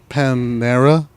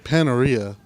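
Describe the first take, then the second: First: The name has three syllables, without an extra 'ee'. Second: The name has four syllables, with an extra 'ee'. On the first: The speaker calls it right. "Apparently it's Panera" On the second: The speaker calls it wrong. "I apparently say it wrong"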